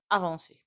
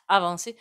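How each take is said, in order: First: Said in the usual way. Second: Avancer said louder with a rising end; emphatic repeat. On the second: Shown as a demonstration. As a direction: lean hard on Avancer the second time. Repeats the card's message.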